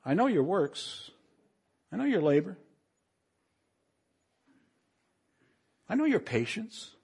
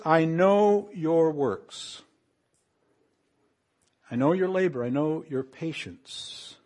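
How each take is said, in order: First: I know YOUR works, rising on YOUR, building higher and softer; right inflection. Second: I know your works with KNOW stressed slowly, falling. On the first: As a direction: lift YOUR each time, like a gentle reproach. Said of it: "read this with the right inflection". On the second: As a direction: lean on KNOW each time, falling tune. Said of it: "Notice what it says here". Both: Shown as a demonstration.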